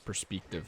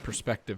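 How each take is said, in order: First: The E vowel sounds odd and altered. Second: The E vowel sounds ordinary.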